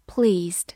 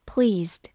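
No difference in how they are said.

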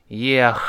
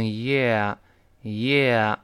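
First: "yeah" ending in a rough throat-clearing kh; wrong sounded H. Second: "yeah" slow, open ending with no H sound; silent H. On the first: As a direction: finish "yeah" as if about to spit phlegm. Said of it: "不要读成yeah". (“yeah”结尾错发H，像要吐痰) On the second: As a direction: let "yeah" fade out cleanly on the vowel. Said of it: "后面那个H呢不发音". (“yeah”结尾H不发音) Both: Shown as a demonstration.

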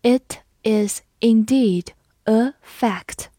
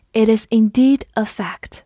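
First: Each word slow and clear; slow reading. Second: Said in the usual way. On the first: Shown as a demonstration. Teacher reading slowly for students, slow and clear. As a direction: read it slowly for learners. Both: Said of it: "好，我们慢读一遍。".

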